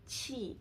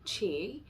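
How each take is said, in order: First: It is said with flat lips and tongue. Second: It is said with curled tongue and rounded lips. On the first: "my tongue is completely flat" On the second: "if I say qi in English, it's almost like my tongue is curled"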